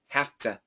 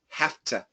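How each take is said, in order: First: A voiceless F runs into a clear T. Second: The same.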